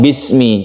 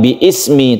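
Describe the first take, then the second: First: Bi runs straight into smi without a break. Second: A glottal stop separates bi from ismi. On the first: The speaker calls it right. "tapi langsungkan bismi" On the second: The speaker calls it wrong. "bukan bi ismi"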